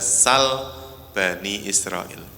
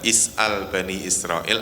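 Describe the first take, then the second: First: The first word is short, without the glottal stop. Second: The first word starts with a vowel and glottal stop. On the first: This is another accepted reading. "ada sal Bani Israil" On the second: This is one of the accepted readings. "Ada yang membaca is'al Bani Israil"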